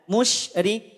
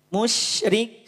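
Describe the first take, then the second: The two takes are said the same way.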